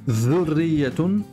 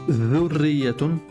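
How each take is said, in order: The two takes are said the same way.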